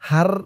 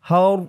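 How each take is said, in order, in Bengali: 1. r ধ্বনিটি পাতলা ও হালকা। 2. r ধ্বনিটি পূর্ণ ও ভারী। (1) "এরকম বলা যাবে না" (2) "রর আওয়াজটা পুর মোটা হবে"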